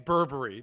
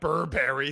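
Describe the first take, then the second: First: The ending does not sound like cereal 'berry'. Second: The ending sounds like cereal 'berry'. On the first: The speaker calls it right. "it's Burberry" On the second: The speaker calls it wrong. "not Burberry. It's not a cereal"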